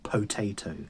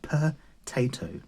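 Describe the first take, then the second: First: The first syllable sounds like 'po'. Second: The first syllable sounds like 'per'. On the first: "not potato" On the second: "there's like a per in there"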